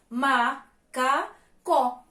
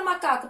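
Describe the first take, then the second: First: "Macacó" very slowly, a gap after each syllable. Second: Said in the usual way. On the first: Shown as a demonstration. Teacher has pupils count syllables, "Macacó" split up. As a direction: say "Macacó" as ma, ca, có, final vowel open. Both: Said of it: "Pronuncia aí".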